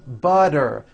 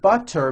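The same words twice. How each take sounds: First: The middle consonant is a soft D sound. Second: The middle consonant is a crisp T sound.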